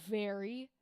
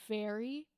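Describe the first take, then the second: The two takes are said the same way.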